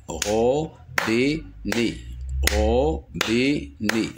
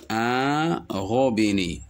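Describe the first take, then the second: First: "robinet" slowly split into ro, bi, net; syllable by syllable. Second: Said in the usual way. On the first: Shown as a demonstration. Teacher demonstrating three syllables, syllable by syllable. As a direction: give "robinet" three separate beats. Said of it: "trois syllabes". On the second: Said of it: "Le mot robinet contient deux".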